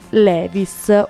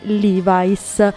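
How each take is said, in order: First: The name is pronounced the Italian way. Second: The name is pronounced the American English way. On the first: The speaker calls it wrong. "la vera storia di Levi's" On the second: The speaker calls it right. "o per meglio dire Levi's"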